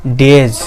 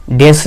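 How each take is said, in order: First: डेज ending in a voiced Z/J; डेज with the plural S said as Z; final Z sound. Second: डेज ending in an unvoiced S, as "des"; डेज with a plain S at the end; wrong S ending. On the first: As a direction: end डेज on a buzz, not S. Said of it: "डेज नहीं बोलेंगे". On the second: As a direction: say डेज with a hissed S in place of Z. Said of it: "नहीं बोलेंगे". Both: Shown as a demonstration.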